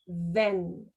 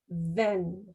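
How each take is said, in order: No difference in how they are said.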